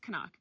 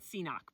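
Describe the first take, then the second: First: The name begins with a 'ka' sound. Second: The name begins with a 'see' sound. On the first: The speaker calls it right. "but I think it's Canuck" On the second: The speaker calls it wrong. "I used to call it Ceenock"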